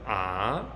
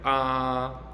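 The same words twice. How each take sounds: First: The pitch starts mid and rises upward. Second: The pitch stays high and level throughout. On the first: "starts in the middle and then goes up" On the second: "sound one sounds like ah. It's just high and flat"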